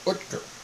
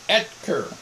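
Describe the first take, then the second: First: The first vowel is a rounded umlaut sound. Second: The first vowel is a plain E sound. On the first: This is the German way of saying the name. "In Germany, there's no E and there's an umlaut over the O" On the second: This is the American way of saying the name. "It's pronounced Etker"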